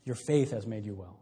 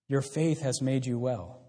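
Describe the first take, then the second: First: Softer, lower echo of the blessing; soft repeat. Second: Slow, gentle words of Jesus; gentle quoted blessing. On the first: Real, not acted. Preacher repeating the line to the congregation, softly and lower. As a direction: let it sink in, drop the voice. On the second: Acted. Preacher voicing Jesus's blessing to the woman, slow and gentle. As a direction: lay it on her slowly, with care.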